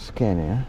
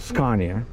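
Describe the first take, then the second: First: It is pronounced the usual American way. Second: It is pronounced the local British way. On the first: This is how the speaker normally says it. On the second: This is how people here say it.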